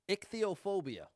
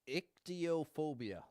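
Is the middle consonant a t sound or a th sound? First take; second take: th sound; t sound. First: The middle consonant is a th sound. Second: The middle consonant is a plain t sound. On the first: The speaker calls it right. "It's a it's a th instead of a t sound" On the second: The speaker calls it wrong. "That would be my guess"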